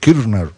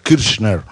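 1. El sonido 'ch' es suave, casi mudo. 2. El sonido 'ch' se pronuncia fuerte. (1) "No se pronuncia la Che, ¿no? Mucho. Es como muda" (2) "no se pronuncia la Che tanto así"

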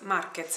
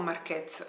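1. L'accento è sulla prima sillaba. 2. L'accento è sull'ultima sillaba. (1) "l'accento è sulla A" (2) "non Marquez"

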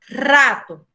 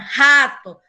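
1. Se pronuncia a la manera española, con una R fuerte. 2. Se pronuncia a la manera portuguesa. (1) "o R no inicio de la palabra tem son forte. Entonces, você pronuncia rato" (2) "si vocês escutan esa palabra o leen esa palabra en portugués, vocês falan rato"

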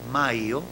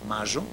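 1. La y es un deslizamiento muy abierto. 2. La y tiene una fricción zumbante fuerte. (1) "alófono muy abierto, casi semiconsonántico" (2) "la variante reilada"

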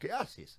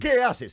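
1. La palabra 'que' es átona. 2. La palabra 'que' es tónica. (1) "sin más" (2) "con acento en la E"

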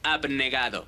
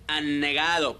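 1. La b antes de la n se pronuncia. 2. La b antes de la n se omite. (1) "por decir abnegado" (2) "se comen algunas letras al pronunciar una palabra y dicen anegado"

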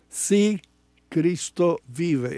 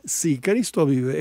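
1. 'Sí' lleva acento y va seguido de una pausa. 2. 'Sí' sigue de corrido con la frase, sin pausa. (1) "Es una afirmación" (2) "no es sí, Cristo vive"

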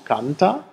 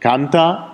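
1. Es wird mit einer schlichten Aussage-Intonation gesprochen. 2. Es wird mit einer energischen Befehls-Intonation gesprochen. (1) "Einmal die dritte Person Singular" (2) "an meiner Intonation ... dass es sich hier um einen Imperativ handelt"

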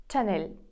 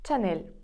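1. Слово починається зі звуку «ч». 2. Слово починається зі звуку «ч».

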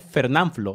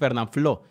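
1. El acento cae en la sílaba nan. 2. El acento cae en la última sílaba, flo. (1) "como están acostumbrados a decirme Fernán, me dicen Fernán y luego agregan el Flo" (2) "la manera correcta de, de decir es Fernanfloo"

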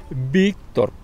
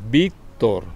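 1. Se dice como 'Víctor', terminando en R. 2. Se dice como 'Víctor', terminando en R.

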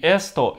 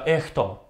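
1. Звук s — это чёткий свистящий звук. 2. Звук s становится придыхательным звуком h. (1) "эсто это эхто" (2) "эсто это эхто"

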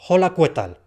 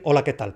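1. La h y la u se pronuncian. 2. La h y la u son mudas. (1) "la H de hola, si está ahí, habrá que hacer algo con ella... Habrá que pronunciarla. Y la U de qué... también habrá que pronunciarla" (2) "Para decir hola, ¿qué tal?"

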